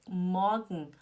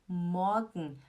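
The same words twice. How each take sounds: The two takes are said the same way.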